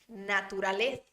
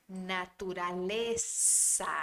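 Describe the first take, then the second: First: The z is said with the tongue between teeth. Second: The z is said as a plain s. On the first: This is how it is said in Spain. "são os espanhóis que falam com a língua entre os dentes" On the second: This is how it is said in the Americas. "têm o som do S do português"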